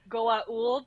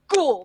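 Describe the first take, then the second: First: The name is said in full, in separate parts. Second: The name is shortened to one quick syllable. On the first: This is how the aliens themselves say it. The speaker calls it right. "pronounce it correctly" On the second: A dismissive human mangles the name. The speaker calls it wrong. "characters like like Jack O'Neill who's like"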